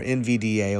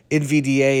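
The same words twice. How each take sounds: First: Said in the usual way. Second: N V D A called out high and loud; loud emphasis. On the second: Real, not acted. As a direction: punch N V D A up and out. Repeats ticker, second time punched.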